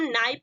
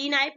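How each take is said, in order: First: नाइफ starting straight on N; silent K. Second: की नाइफ with a sounded 'kee' in front; mispronounced knife, 'kee-naif'; wrong pronunciation. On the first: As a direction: say नाइफ with no K sound. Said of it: "इसको क्या पढ़ेंगे हम?". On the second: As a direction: split it as की नाइफ, K not silent. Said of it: "की नाइफ नहीं पढ़ेंगे". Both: Shown as a demonstration.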